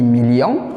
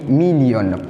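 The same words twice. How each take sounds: First: It is pronounced with French sounds. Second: It is pronounced with English sounds. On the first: "En français on dit million" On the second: "En anglais on dit million"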